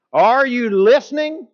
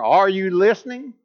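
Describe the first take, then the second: First: Louder, higher repeat of the question; stronger repeat. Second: Said in the usual way. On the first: Retold or imitated. Drill sergeant repeats his question with more force. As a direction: hit it harder the second time, drill sergeant style. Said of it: "emphasis that is stronger".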